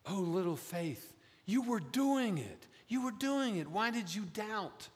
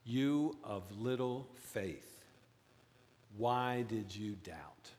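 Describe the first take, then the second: First: Much higher, tender, encouraging Oh, little faith; gentle encouraging tone. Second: Slow, solemn You of little faith; stern rebuke. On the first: Jesus to Peter, gently encouraging, high. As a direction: coax him lovingly, proud of him. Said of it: "maybe Jesus' tone was more like this". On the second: Jesus to Peter, slow stern rebuke. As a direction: rebuke slowly and gravely. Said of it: "Jesus says to Peter". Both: Retold or imitated.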